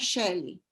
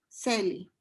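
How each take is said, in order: First: The name begins with an sh sound. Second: The name begins with a plain s sound. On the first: This is the name the family used. "Yo era Shelly" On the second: This is how Greek speakers say the name. "Como los griegos no, no pueden pronunciar el sonido de sh"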